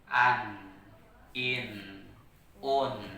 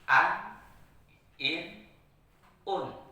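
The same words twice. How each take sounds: First: The n sound is held moderately. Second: The n sound is cut off abruptly. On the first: The speaker calls it right. "Maka sinun dibaca dengan sifat tawasul" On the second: The speaker calls it wrong. "Kenapa salah? ... Karena satu ketukan"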